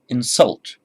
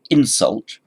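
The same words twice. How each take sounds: First: The stress is on the second syllable. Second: The stress is on the first syllable. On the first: It is a verb. "You put it on the second syllable" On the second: It is a noun. "You put the stress on the first syllable"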